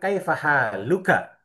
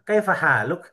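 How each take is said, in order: First: The last word ends with its full final vowel. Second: The last word ends without its final vowel. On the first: It is the full formal form. "Harusnya kan kaifa haluka" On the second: It is casual conversation. "huruf terakhirnya dimatikan"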